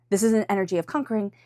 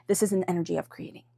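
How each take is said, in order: First: Quick, driving and forceful; punchy, hurried read; brisk conquering. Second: Soft, gentle read; gentle creating. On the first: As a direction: push it out fast like a conqueror. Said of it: "not conquering". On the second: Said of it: "It's an energy of creating". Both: Shown as a demonstration.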